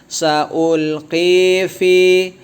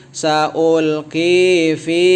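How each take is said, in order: Both takes have the same delivery.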